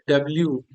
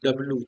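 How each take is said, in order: First: It ends with a 'lyoo' glide sound. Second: It ends with a plain 'loo' sound. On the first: The speaker calls it right. "इसका correct pronunciation क्या होता है" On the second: The speaker calls it wrong. "आप लोग क्या करते हो, डब्लू बोलते हो"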